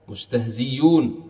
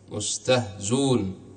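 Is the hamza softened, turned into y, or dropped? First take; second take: y sound; dropped. First: The hamza is replaced by a y sound. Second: The hamza is dropped entirely. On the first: It follows an alternative grammatical view. "إبدالها ياء" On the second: It follows the written form. "حذف الهمزة"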